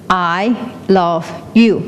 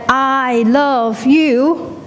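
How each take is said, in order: First: Slow, measured echo; echo shouting back. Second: High, very drawn-out calling out; shouted call. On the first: The world answers the shout from the cliff, slow echo. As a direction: give it back slowly, word by word. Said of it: "it will shout back". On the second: Someone on a cliff shouting love out, long high call. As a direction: stretch each word out across the valley. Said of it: "if you shout back". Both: Acted.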